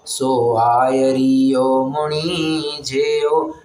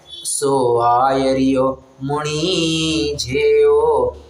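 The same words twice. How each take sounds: First: The syllable ri is strongly stressed. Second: The syllable ri is not strongly stressed. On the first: The speaker calls it wrong. "आयरियो का जो री है ना उसको बड़ा stress देता था" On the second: The speaker calls it right. "ये ऐसा नहीं पढ़ना है"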